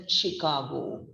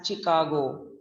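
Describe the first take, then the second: First: "Chicago" starting with SH as in shop; correct Chicago. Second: "Chicago" starting with CH as in chop; mispronounced Chicago. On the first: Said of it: "We are pronouncing it with the". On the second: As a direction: say "Chicago" wrongly as chi-KA-go, hard CH. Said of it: "we don't say it as Chicago". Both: Shown as a demonstration.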